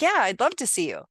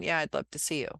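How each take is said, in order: First: It is said warmly, as if smiling. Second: It is said flatly, without a smile. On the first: The speaker really means it. The speaker calls it right. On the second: The speaker does not really mean it. The speaker calls it wrong.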